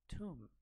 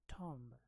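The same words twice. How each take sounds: First: The vowel is a long 'oo' sound. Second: The vowel is not an 'oo' sound. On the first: The speaker calls it right. "The correct way to pronounce this word is Tomb" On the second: The speaker calls it wrong. "I have heard most of the people saying it the same way, Tomb. ... This is not how it is supposed to be pronounced"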